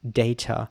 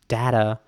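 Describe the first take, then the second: First: It is said in a British accent. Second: It is said in an American accent. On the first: "certain words that I pronounce in a very British way" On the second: "Americans might pronounce this word differently"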